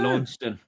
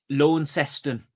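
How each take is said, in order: First: Some syllables of the name are dropped. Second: Every syllable of the name is pronounced fully. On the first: This is the UK way of saying the name. "we'd call it" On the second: This is the Australian way of saying the name. "they pronounce all of the syllables"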